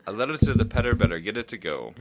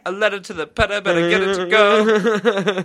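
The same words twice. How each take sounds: First: Said in the usual way. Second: Butler voice. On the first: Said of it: "way easier doing it like that". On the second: Acted. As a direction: croon it like a grand butler. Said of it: "that was my butler voice".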